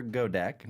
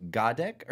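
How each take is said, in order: First: Godek with a long O, "GO-deck"; second try at Godek, first syllable like "go"; alternative pronunciation guess. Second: Godek with first syllable "GAH"; unsure name reading, "GAH-deck" for Godek; first pronunciation guess. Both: Shown as a demonstration. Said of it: "not sure how to pronounce that".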